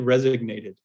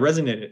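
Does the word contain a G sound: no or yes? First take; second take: yes; no. First: The word has a G sound in the middle. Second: The word has no G sound in the middle. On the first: The speaker calls it wrong. "For some reason, I say resignated" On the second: The speaker calls it right. "It's not resignated though"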